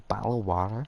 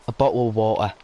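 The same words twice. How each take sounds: First: It is said in an imitated American accent. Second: It is said in an exaggerated British accent. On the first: "Because I'm American" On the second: "Nobody I know speaks like this British accent"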